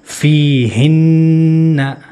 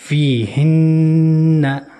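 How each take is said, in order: Both takes have the same delivery.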